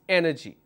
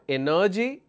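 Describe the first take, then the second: First: The stress is on the first syllable. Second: The stress is not on the first syllable. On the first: The speaker calls it right. "the third last syllable from the right will take the stress" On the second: The speaker calls it wrong. "Not energy"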